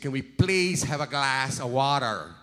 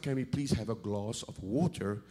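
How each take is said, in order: First: It is said in an American accent. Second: It is said in a South African accent.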